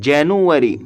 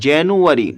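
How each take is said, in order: The two takes are said the same way.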